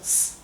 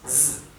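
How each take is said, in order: First: The s sound is voiceless, without vibration. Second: The s sound is voiced, with vibration. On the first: The speaker calls it wrong. "no es z" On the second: The speaker calls it right. "es z; la S se pronuncia vibrada"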